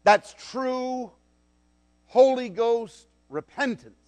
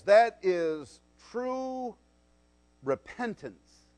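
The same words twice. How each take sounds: First: "Holy Ghost" lifted and punched, steady level; full-voiced "That's true Holy Ghost repentance"; stress on HOLY. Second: "That is true" stretched very slowly, "repentance" dropped soft; slow, hushed "That is true repentance"; slow stress. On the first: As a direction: hit "Holy" and lean on "Ghost". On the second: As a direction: draw out "true" then let "repentance" fall away. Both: Shown as a demonstration.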